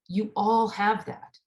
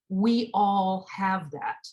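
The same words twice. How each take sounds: First: "all" leaned on, slow; stress on all. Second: "We" leaned on, very slow; stress on we. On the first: Preacher assuring the congregation, stress on "all". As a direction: press the word "all" in "You all have that". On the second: Preacher including herself, slow, stress on "We". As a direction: put the weight on "We" in "We all have that". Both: Acted. Rhetorical repetition.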